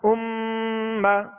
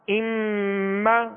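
The two takes are said the same way.

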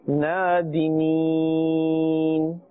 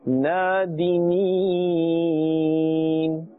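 No difference in how they are said.

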